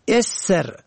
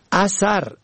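First: اسر said "esr"; short e opening اسر, no full second vowel; kasra then sukun. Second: اثر said "asar"; short a in both syllables of اثر; fatha on both syllables. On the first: Teacher shows اسر for "behind", pronounced esr. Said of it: "به کسر اول و سکون دوم". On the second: Teacher shows اثر for "sign", pronounced asar. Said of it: "به فتح اول و دوم". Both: Shown as a demonstration.

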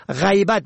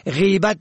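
First: غیبت said "ghaybat"; ay diphthong in first syllable of غیبت; fatha on first. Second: غیبت said "ghibat"; long i in first syllable of غیبت; kasra on first. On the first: Teacher shows غیبت for "absence", pronounced ghaybat. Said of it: "به فتح اول". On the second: Teacher shows غیبت for "backbiting", pronounced ghibat. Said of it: "به کسر اول". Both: Shown as a demonstration.

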